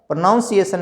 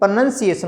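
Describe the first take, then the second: First: The second syllable sounds like 'noun'. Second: The second syllable sounds like 'nun'. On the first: The speaker calls it wrong. "प्रोनाउंसिएशन नहीं" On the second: The speaker calls it right. "प्रोनंसिएशन होता है"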